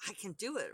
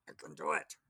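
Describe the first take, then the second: First: Said in the usual way. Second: Growled monster voice; grotesque monster voice. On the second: Shown as a demonstration. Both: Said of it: "that has to be the monster voice".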